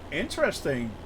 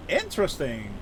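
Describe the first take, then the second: No difference in how they are said.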